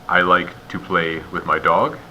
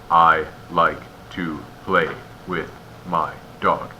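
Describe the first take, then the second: First: It is paused at natural phrase breaks. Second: It is broken up by very many pauses. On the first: The speaker calls it right. "that's good" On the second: The speaker calls it wrong. "You also don't want too many pauses"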